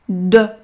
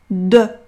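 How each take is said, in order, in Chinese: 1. 这个元音是闭圆唇的e。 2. 这个元音是闭圆唇的e。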